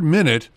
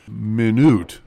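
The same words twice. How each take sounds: First: The stress is on the first syllable. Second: The stress is on the second syllable. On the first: It refers to notes taken at a meeting. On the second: It means very small.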